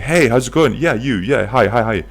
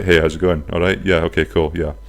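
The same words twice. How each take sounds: First: Higher-pitched, bouncy string of greetings; eager street greeter. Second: Casual, unbothered greeting at usual pitch; nonchalant. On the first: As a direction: hail passers-by as if jumping up and down. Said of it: "They're jumping up and down. They're saying". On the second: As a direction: greet passers-by like you don't care about the job. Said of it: "he was just nonchalant". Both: Acted.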